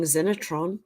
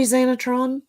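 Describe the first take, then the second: First: "Xenotron" said as ZEN-uh-tron; short E in the first syllable of "Xenotron"; mistaken pronunciation. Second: "Xenotron" said as ZAY-nuh-tron; corrected pronunciation. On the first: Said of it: "what have I been saying?". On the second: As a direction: open up the first vowel of "Xenotron" to a long AY. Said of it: "It's pronounced Xenotron". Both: Shown as a demonstration.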